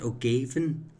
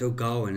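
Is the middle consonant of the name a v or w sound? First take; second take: v; w. First: The middle consonant is a v sound. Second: The middle consonant is a w sound. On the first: The speaker calls it wrong. "Is, is it pronounced O'Gavin um, in in in Irish?" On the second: The speaker calls it right. "No, it's O'Gawin, isn't it?"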